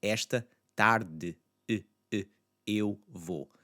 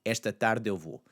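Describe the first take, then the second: First: "esta tarde" slowly, swallowed e isolated, then "eu vou" apart; separated words. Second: "tarde eu" linked as one unit in "esta tarde eu vou"; blended vowels. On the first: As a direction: break between "tarde" and "eu vou". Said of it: "You notice what happens there". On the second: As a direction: glide from "tarde" straight into "eu vou". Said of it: "it's largely gonna blend in with that tarde". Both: Shown as a demonstration.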